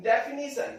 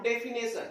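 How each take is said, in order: First: Definition with "nee" in the third syllable, de-fi-NEE-sun; correct pronunciation. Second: Definition with "nay" in the third syllable, de-fi-NAY-sun; wrong pronunciation. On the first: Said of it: "ये डेफिनेशन नहीं होता है". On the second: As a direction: mispronounce definition as "defi-nay-sun", with an ay vowel. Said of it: "not definition". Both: Shown as a demonstration.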